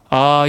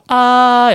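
First: It is in a normal, lower pitch. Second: It is in a higher pitch.

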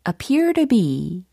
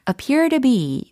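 First: Every syllable is pronounced clearly and fully. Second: The syllables are weakened and run together.

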